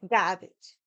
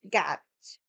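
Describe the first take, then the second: First: Said in the usual way. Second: Low, heavy Boston accent. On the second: Shown as a demonstration. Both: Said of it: "Now my Boston accent's gonna come out".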